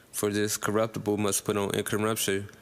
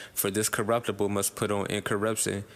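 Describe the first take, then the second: Both takes have the same delivery.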